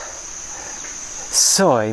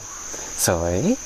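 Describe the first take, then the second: First: The pitch drops on the word. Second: The pitch rises at the end. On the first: It means bad luck. The speaker calls it wrong. "I'll drop the tone to emphasize how beautiful it is" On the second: It means beautiful. The speaker calls it right. "obviously got to rise in the end"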